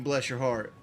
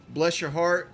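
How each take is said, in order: First: Said in the usual way. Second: "Bless your heart" sweet and rising, with a light Southern lilt; a hint of syrupy Southern politeness. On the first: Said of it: "doesn't mean". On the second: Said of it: "Southern slang".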